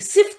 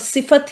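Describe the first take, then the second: First: The word has one syllable, sift. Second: The word has two syllables, si-fat. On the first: The speaker calls it wrong. "सिफ्त नहीं बोलेंगी" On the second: The speaker calls it right. "सिफत ही बोलेंगी"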